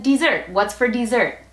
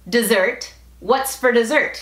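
First: "dessert" as dee-ZERT; "dessert" opening on a crisp ee sound; ee-like first vowel. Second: "dessert" as duh-ZERT, weak first syllable; "dessert" opening on a relaxed schwa; reduced first vowel. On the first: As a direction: say "dessert" with a clear dee before stressed ZERT. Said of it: "O dicen". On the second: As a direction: say "dessert" with a quick duh before stressed ZERT. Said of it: "hay personas que dicen". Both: Shown as a demonstration.

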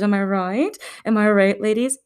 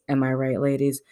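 First: Higher, perky call to the ladies; rally the ladies with a raised voice; mock rallying. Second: Lower, understated aside; low deadpan repeat. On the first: Praising women as mothers, mock perky rallying. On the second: Pretend. Nudging the ladies again, low mock aside. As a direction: drop the voice for a mock-knowing aside.

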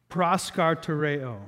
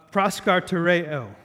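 First: Proskartereo slow, each syllable careful; sounding out words. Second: Proskartereo sounded out syllable by syllable; sounding out words. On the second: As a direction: say proskartereo carefully, pros-kar-te-re-o. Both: Shown as a demonstration. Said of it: "I'm trying to pronounce this word".

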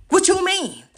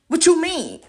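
First: Higher, loud, disbelieving; incredulous shout. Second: High, loud indignant challenge; indignant rant. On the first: Ranting at critics online, even higher disbelief. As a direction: throw it back louder. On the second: Ranting at critics online, high indignant demand. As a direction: fling the question at them. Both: Real, not acted.

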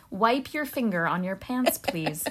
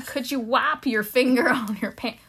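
First: Said in the usual way. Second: Put-on Southern accent. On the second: Repeating the guard's line for a puzzled co-host, Southern accent. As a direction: put on an American Southern security man. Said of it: "Your Southern accent is".

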